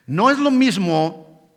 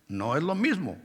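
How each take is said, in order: First: "No es lo mismo" slow, louder, stress on "lo"; emphatic. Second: "No es lo mismo" dropped soft, falling on "mismo"; soft falling repeat of "No es lo mismo"; quiet repeat. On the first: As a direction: draw out "No es lo mismo" to make the point. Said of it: "preacher stresses a distinction". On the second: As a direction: say "No es lo mismo" again, softly settled. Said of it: "preacher repeats the distinction". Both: Shown as a demonstration.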